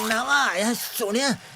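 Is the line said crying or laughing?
crying. It is said in a crying, tearful voice.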